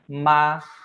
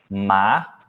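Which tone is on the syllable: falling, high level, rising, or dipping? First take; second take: high level; rising. First: The pitch stays high and level. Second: The pitch rises from mid to high. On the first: It means mother. "pra mãe" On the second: It means hemp or linen. "pra cânhamo ou linho"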